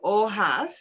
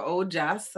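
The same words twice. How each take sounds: First: Ojas said OH-hahs, drawn out; unsure pronunciation. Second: Ojas said OH-jahs; alternative pronunciation. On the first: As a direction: say Ojas with an H in place of the J. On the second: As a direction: say Ojas with a hard English J. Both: Shown as a demonstration. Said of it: "I don't know how you pronounce it".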